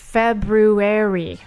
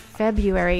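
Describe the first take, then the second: First: The first r sound is clearly pronounced. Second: The first r sound is dropped. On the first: The speaker calls it right. "it's February" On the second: The speaker calls it wrong. "so many people say February"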